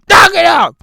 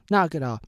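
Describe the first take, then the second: First: Be the echo answering loud; loud mock echo. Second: Said in the usual way. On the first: Shown as a demonstration. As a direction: Knock it off shouted back higher and louder.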